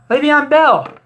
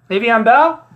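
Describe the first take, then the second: First: Le'Veon Bell called out high and loud with a falling end; loud announcement. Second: Le'Veon Bell? asked with a rising, disbelieving tune; doubting question. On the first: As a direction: announce Le'Veon Bell like a big reveal, higher and louder. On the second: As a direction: question Le'Veon Bell as if you can't believe it. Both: Shown as a demonstration.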